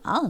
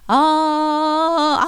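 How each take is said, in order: First: The held vowel trembles a lot. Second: The held vowel stays steady and straight. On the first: This is the folk style. "민속은 아 이렇게 많이 떨어요" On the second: This is the court style. "그냥 아, 아 나가지"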